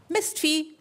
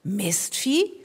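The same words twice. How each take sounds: First: Higher, spat-out insult; a fed-up player cursing the animal; a footballer muttering an insult; grumpy footballer curse. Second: "Mistvieh?" repeated with a rising, disbelieving tune; offended echo. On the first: Acted. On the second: A narrator's reading. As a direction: repeat the insult as if you can't believe it. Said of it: "Es gab Wörter, die konnte Mortimer ... kein bisschen leiden".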